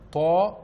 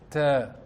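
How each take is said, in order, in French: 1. Le son de la consonne est lourd et grave. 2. Le son de la consonne est léger et fin. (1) "Nous n'allons pas dire Ta" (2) "mais nous allons prononcer Ta"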